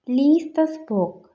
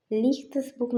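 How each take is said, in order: First: Slow, careful and louder, stressing lease; slow teaching demo. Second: Said in the usual way. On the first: Shown as a demonstration. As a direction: spell it out slowly for learners. (പതുക്കെ, വ്യക്തമായി) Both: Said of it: "എന്ന് പറഞ്ഞാൽ".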